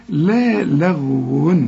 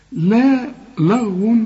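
First: "لا لغو" drawn out, both lams thin and light. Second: "لا لغو" with the second lam wrongly thick and dark; wrong heavy lam. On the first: Teacher showing the correct lam, light and slow. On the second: Teacher imitating the student's slip, wrong heavy lam. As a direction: darken the l of "لغو" after a light "لا". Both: Shown as a demonstration. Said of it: "طب ما هي اللام مرققة".

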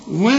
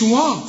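First: و with a short, thin "weh" vowel; light waw. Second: وا with a dark, thick "waw" vowel; wrong heavy waw. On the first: Teacher correcting the mistake, light و. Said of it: "الواو مرققة". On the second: Teacher showing what not to say, heavy وا. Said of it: "ما تقولش". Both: Shown as a demonstration.

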